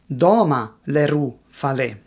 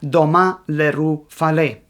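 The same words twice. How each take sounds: First: Not every word is stressed on its second syllable. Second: Every word is stressed on its second syllable.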